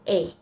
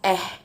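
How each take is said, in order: First: It is said with a long 'ay' vowel. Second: It is said with a short 'eh' vowel. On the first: "Canadian people uh, pronounce this as A" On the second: "Indonesian people usually pronounce this as eh"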